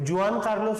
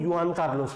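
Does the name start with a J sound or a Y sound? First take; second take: J; Y. First: The name starts with a J sound. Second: The name starts with a Y sound. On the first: "कई जगह जुआन Carlos नहीं" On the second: "युआन Carlos भी बोला जाता है"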